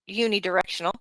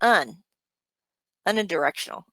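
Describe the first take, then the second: First: The first syllable sounds like 'you'. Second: The first syllable sounds like 'un'. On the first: The speaker calls it right. "said unidirectional" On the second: The speaker calls it wrong. "not pronounced un, unidirectional? ... that wouldn't be right"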